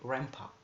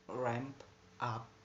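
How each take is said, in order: First: The two words blend together with an assimilated sound. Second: The two words are said separately and clearly. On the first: "in rapid speech, because of assimilation, it's become a ramp up" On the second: "In normal sound it is ramp up"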